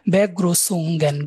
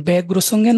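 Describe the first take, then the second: First: বেগ্রুসুঙ্গেন said slowly, syllable by syllable, like Begrüßungen; teacher modelling বেগ্রুসুঙ্গেন in German; slow careful German word. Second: Said in the usual way. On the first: Shown as a demonstration. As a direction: spell out বেগ্রুসুঙ্গেন slowly for learners. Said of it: "সেটাকে আমরা বলতেছি". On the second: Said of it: "মানে হচ্ছে শুভেচ্ছা".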